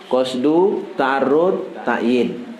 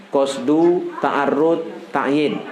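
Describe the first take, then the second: Both takes have the same delivery.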